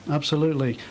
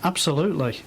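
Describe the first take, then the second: No difference in how they are said.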